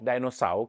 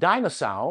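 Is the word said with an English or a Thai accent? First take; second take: Thai; English. First: It is said with a Thai accent. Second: It is said with an English accent.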